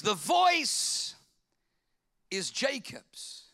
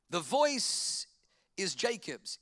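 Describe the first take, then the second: First: "voice" lifted high and loud, then "is Jacob's" slow and drawn out; stress on voice. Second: Said in the usual way. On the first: Shown as a demonstration.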